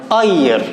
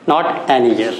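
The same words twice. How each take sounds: First: Said in the usual way. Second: Teacher contrasting the wrong form. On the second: Shown as a demonstration. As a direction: mark "not an year" as the mistake.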